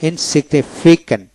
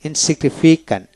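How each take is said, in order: Both takes have the same delivery.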